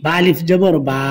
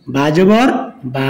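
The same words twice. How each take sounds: First: Final বা with a held, long vowel; one-alif stretch. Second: Final বা with a short, quick vowel. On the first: Teacher showing learners the stretch, long final বা. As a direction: draw out the last বা for one alif. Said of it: "এক আলিফ টান হবে". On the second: Teacher showing learners the quick reading, short final বা. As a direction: cut the vowel of the last বা short. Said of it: "এটা তাড়াতাড়ি পড়তে হবে". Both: Shown as a demonstration.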